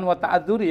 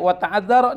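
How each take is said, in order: First: The word ends with an 'i' vowel. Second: The word ends with an 'a' vowel. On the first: The speaker calls it wrong. "jangan wa ta'adzuri ya" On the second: The speaker calls it right. "Bisa juga baca wa ta'adzara nih"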